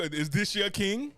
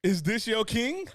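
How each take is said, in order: First: Slow, drawn-out question; slow mocking ask. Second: Slow, drawn-out, a bit higher; slow mocking ask. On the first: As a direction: stretch each word, mocking. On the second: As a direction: stretch it, pushing harder. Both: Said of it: "they go".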